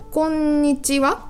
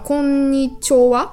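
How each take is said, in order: First: The fourth syllable is a plain 'chi' sound. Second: The fourth syllable is a 'cho' sound.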